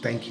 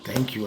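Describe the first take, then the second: First: It is said plainly, without extra emphasis. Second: It is said with strong emphasis and expression. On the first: "instead of thank you" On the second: "you will put emphasis and expression behind it"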